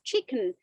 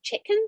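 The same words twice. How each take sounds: First: It is said in a non-Scottish accent. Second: It is said in a Glaswegian accent. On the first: This is how the visitor said it. "just just chicken" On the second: This is how the local woman said it. "the lady said something to the effect of chicken"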